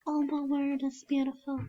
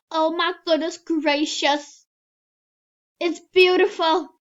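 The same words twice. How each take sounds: First: Said in the usual way. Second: High, loud oh-my-goodness wonder; loud awe. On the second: Real, not acted. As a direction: gush over it loudly. Admiring avatar outfit.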